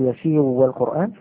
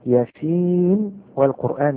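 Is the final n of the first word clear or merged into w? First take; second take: merged; clear. First: The n is merged into the following w. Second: The n is pronounced clearly before the w. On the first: The speaker calls it wrong. "لا أقول" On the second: The speaker calls it right. "هنا الإظهار"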